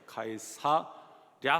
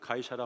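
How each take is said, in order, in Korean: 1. 이름은 나눠서 발음합니다. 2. 이름은 한 덩어리로 뭉개져서 발음합니다. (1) "가이사 랴 하면 되는데" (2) "이거 한꺼번에 붙이면"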